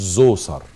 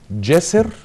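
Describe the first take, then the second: First: The name begins with a 'z' sound. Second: The name begins with a 'dj' sound. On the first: The speaker calls it wrong. "مش زوسر" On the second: The speaker calls it right. "جسر مش زوسر"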